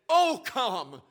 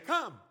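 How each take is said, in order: First: It is said with passionate, pleading feeling. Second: It is said plainly, without feeling.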